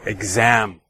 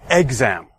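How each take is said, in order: First: The stress is on the second syllable. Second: The stress is on the first syllable. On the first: The speaker calls it right. "the stress is placed on the second syllable" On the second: The speaker calls it wrong. "We don't say exam"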